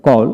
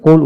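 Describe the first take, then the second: First: কল with an open "aw" vowel; teacher modelling American কল; American pronunciation demo. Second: কোল with a rounded "oh" vowel; teacher modelling British কোল; British pronunciation demo. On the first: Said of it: "প্রথমটি American উচ্চারণ". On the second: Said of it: "British উচ্চারণে কোল উচ্চারণ করা হয়". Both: Shown as a demonstration.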